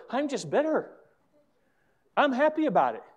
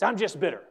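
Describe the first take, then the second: First: Much higher, happy-sounding imitation; mock cheerful. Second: Imitated bitter complaint; embittered. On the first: Pastor showing how bitter people never sound, cheerfully high. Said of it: "It's never". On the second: Pastor showing how bitter people really say it, resentfully. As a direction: say it like someone stuck in resentment. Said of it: "They say it just like that".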